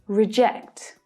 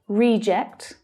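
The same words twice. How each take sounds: First: The stress is on the second syllable. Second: The stress is on the first syllable. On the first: It is the verb, to turn down. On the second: It is the noun, someone turned down.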